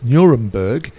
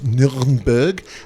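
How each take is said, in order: First: The name is pronounced the English way. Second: The name is pronounced the German way. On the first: "in English pronunciation is Nuremberg" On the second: "in German is Nürnberg"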